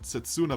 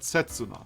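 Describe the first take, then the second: First: The name is said with English-style pronunciation. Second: The name is said with Japanese-style pronunciation. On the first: The speaker calls it wrong. "probably not Setsuna" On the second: The speaker calls it right. "Japanese pronunciation and stuff"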